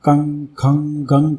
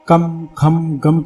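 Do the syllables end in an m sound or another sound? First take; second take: another sound; m sound. First: The syllables do not end in an m sound. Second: The syllables end in a clear m sound.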